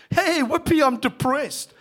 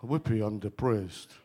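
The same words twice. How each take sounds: First: Loud, high, cheery whoopee; mock cheer. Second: "Whoopee" said much lower and dull; deadpan the whoopee, no joy at all; flat mock cheer. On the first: Preacher mocking cheer over bad news, loud and bright. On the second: Preacher showing the flat way to say it, deadpan. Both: Shown as a demonstration. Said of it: "you wouldn't say it like that".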